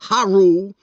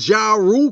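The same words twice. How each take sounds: First: The name begins with an h sound. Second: The name begins with a j sound.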